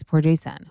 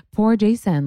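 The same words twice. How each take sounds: First: Said in the usual way. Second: Higher, pitying Poor Jason with a falling end; mock pity. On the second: Shown as a demonstration. Catching herself pitying Jason, higher mock sympathy. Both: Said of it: "see, I'm doing it".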